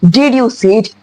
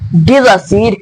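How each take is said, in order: First: The D and Y sounds stay separate. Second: The D and Y merge into a J sound. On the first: "We Indians, how we pronounce it" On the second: "the American people, they pronounce it by pronouncing Dizacid"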